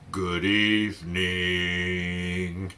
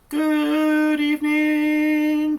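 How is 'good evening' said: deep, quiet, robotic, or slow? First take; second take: deep; robotic. First: It is said in a low, grumpy voice. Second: It is said in a flat robotic voice. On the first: "down really low, like you were just kind of tired and grumpy" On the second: "like a robot"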